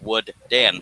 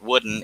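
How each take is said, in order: First: The middle D is said twice, split apart. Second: The middle D is said once, run together. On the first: The speaker calls it right. "There's two D's in there" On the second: The speaker calls it wrong. "it's not wooden"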